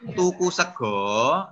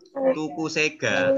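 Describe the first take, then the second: First: The last word ends with an 'o' sound. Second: The last word ends with an 'a' sound. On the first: The speaker calls it right. "yang benar membacanya adalah tuku sego" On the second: The speaker calls it wrong. "tulisannya tuku sega"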